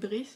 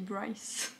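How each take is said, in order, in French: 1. Le nom est prononcé à la française. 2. Le nom est prononcé à l'anglaise. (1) "quand je parle en français je dis Brice" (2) "quand je lis dans ma tête en anglais je dis Bryce"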